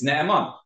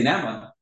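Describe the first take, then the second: First: "Naaman" with a long, separated double vowel, NA-a-MAN; correct Naaman. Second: "Naaman" squeezed into two syllables, NAH-mon; mispronounced Naaman. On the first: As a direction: draw out the first vowels of "Naaman". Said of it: "That's not the right way to say it". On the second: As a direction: shorten the opening of "Naaman" to one quick vowel. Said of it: "you can't say Naaman". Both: Shown as a demonstration.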